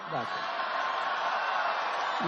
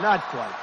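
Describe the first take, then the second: First: Breathy whispered aside, almost no voice on "Not quite". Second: Said in the usual way. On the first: Real, not acted. Whispered aside repeating the joke.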